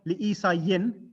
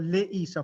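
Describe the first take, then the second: First: The name ends with an added 'in' sound. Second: The name ends without any added 'in' sound. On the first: The speaker calls it wrong. "it's not re- read li Isa yin" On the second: The speaker calls it right. "the last uh, inflection is silent"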